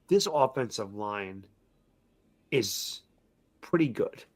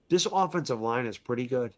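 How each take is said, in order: First: Slow, weighty build with long pauses before the payoff; dramatic pauses. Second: Said in the usual way. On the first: Real, not acted. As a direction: hold each piece, then land it.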